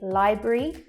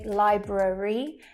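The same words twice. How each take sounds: First: A middle sound is dropped entirely. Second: Every middle sound is fully pronounced. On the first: The speaker calls it right. "those two sounds disappear altogether" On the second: The speaker calls it wrong. "we don't say library"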